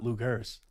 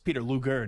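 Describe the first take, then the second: First: The name ends with an s sound. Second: The name ends without an s sound. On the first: The speaker calls it wrong. "not Lugers" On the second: The speaker calls it right. "It's Peter Luger"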